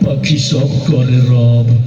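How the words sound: It is said in a frightening, menacing voice. "আরো বেশি ভয়ঙ্কর শোনা গেল"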